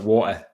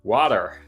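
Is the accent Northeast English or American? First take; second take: Northeast English; American. First: It is said in a Northeast English accent. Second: It is said in an American accent.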